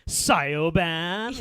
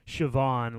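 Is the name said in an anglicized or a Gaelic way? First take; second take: anglicized; Gaelic. First: The name is read out as English spelling. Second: The name has its Gaelic pronunciation. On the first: The speaker calls it wrong. "mispronouncing my kid Siobhan like Siobhan" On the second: The speaker calls it right. "my kid"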